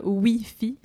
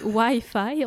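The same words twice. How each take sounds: First: Wi-Fi said slowly as "wee-fee"; mock-correct it, Wi-Fi as "oui-fi"; French pronunciation. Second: Wi-Fi said slowly as "why-fye"; English pronunciation. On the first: (Wi-Fi prononcé « oui-fi », à la française) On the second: (Wi-Fi prononcé lentement « ouaille-faille », à l'anglaise) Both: Shown as a demonstration. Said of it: "on dit pas Wi-Fi".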